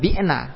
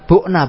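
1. Vokal pertamanya adalah i depan. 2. Vokal pertamanya adalah u bulat. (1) "Kalau bi'na nanti bisa keliru dengan kilna" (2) "bu'na bukan bi'na ya"

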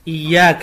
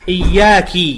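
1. الكاف الأخيرة عليها فتحة. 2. الكاف الأخيرة عليها كسرة.

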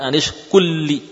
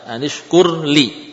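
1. Huruf r menyatu menjadi l yang ganda. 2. Huruf r dibaca jelas sebelum l. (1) "bukan anishkulli" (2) "Anishkur li, bukan anishkulli"

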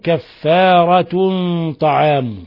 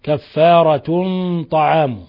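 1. تنتهي الكلمة الأولى بصوت النون. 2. تنتهي الكلمة الأولى بصوت النون.

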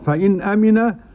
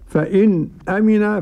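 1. الكلمات متصلة دون سكتة خفيفة. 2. توجد سكتة خفيفة قبل الكلمة الثانية. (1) "والتحقيق" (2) "بالسكت"

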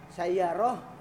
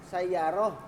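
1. Kata itu berakhir dengan bunyi h. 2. Kata itu berakhir dengan bunyi h.

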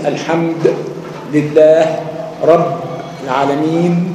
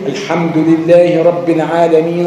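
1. تنتهي الكلمة الأخيرة ساكنة، بدون حركة في آخرها. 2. تنتهي الكلمة الأخيرة بحركة، ويستمر الصوت إلى ما بعدها. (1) "لو وقفت على أي كلمة تسكن" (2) "عايز تصل"

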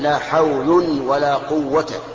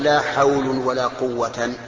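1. تنتهي الكلمة الأخيرة بـ -a القصيرة. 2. تنتهي الكلمة الأخيرة بالحركة -an. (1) "فتكون ألغيت لا في الأولى وأعملتها في الثانية" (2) "ولا تقل لا حول ولا قوة"

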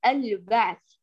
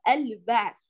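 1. صوت l مقطوع ومضطرب. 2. صوت l مقطوع ومضطرب.

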